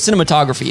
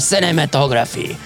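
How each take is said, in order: First: It is said with a plain English accent. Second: It is said with a French accent.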